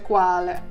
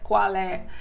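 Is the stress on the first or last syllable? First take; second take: first; last. First: The stress is on the first syllable. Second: The stress is on the last syllable. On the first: It is the single word meaning which. The speaker calls it wrong. "так не говориться лише quale" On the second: It is two words meaning which is. The speaker calls it right. "а читається quale"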